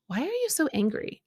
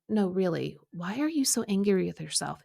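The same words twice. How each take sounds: First: Higher, kindly question; kind, soft voice. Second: Calm, understated insistence; quiet, calm, loving. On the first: God speaking to her in the angry car ride, kind voice. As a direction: ask it gently, without reproach. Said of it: "hear this kind, soft voice say". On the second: God asking her a second time about her anger, calm. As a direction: press the question gently and evenly. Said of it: "it was quiet and calm and". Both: Retold or imitated.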